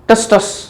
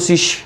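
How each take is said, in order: First: The word begins with an audible T sound. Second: The word begins without any T sound. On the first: "जो बोलना चाहो बोल देना" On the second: "टी silent करो तो"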